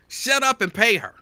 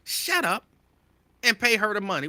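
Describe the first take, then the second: First: High, loud sister's scold; mock yell. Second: High-pitched sister's scold; mock scold. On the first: Sisters telling Tiger Woods to pay, high loud scold. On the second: Sisters scolding the celebrity to pay, high scold. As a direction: scold him in a raised high voice. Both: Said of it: "That's what y'all would say".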